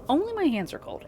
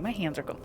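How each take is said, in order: First: "Only my hands are cold" said much higher; higher pitch. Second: Said in the usual way. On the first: Shown as a demonstration.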